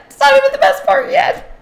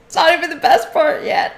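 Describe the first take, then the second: First: Much higher, quick, squeaky re-say; playful high-pitched echo; squeaky high repeat. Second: Said in the usual way. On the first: Shown as a demonstration. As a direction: pipe it up high for fun.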